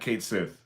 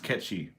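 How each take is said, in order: First: It sounds like 'Kate' followed by 'Sith'. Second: It sounds like 'ketchy', rhyming with 'catchy'. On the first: The speaker calls it wrong. "Not Kate Sith" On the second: The speaker calls it right. "It's Ketchi"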